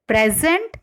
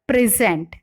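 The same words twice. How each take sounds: First: PREZ-ent, first syllable stressed in Present; noun stress. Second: Pri-ZENT, second syllable stressed in present; verb stress. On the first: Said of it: "nouns or adjectives are stressed on". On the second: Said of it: "the stress falls on the second syllable". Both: Shown as a demonstration.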